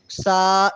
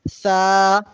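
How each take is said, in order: First: The first consonant is a sharp whistling hiss. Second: The first consonant is soft, tongue against teeth. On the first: The speaker calls it wrong. "सीटी जैसी आवाज़ पैदा ना हो। सा इस तरह ना पढ़ा जाए" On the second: The speaker calls it right. "बल्कि सा"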